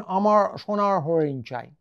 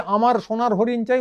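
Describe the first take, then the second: First: Bengali in a mock English accent with weakened r; mimicked English accent. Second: Said in the usual way. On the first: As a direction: imitate an English-speaking foreigner's distorted Bengali. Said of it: "ওরা বলবেন". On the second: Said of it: "এইভাবে বলি".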